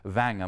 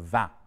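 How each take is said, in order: First: It is said with a southern French accent. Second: It is said with a standard French accent. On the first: "a Southern French accent" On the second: "instead of vin"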